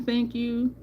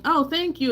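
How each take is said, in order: First: Said in the usual way. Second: "Oh, thank you" pitched high, brushing it off; a thank you that doesn't believe the compliment; half-hearted mock gratitude; dismissive thank you. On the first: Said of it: "not only just saying". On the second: Shown as a demonstration. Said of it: "still not thinking".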